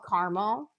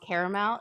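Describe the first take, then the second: First: The middle vowel is dropped, giving two syllables. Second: The middle vowel is kept, giving three syllables. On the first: This is the American way to say it. The speaker calls it right. "There is in America" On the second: This is a European way to say it. The speaker calls it wrong. "It's not called caramel"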